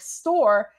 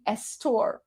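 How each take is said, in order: First: The word starts directly with the s sound. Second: An extra e vowel comes before the s. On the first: "if it was like store" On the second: "it would be estor"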